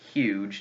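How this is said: It starts with a clear h sound. "The H actually exists in the word"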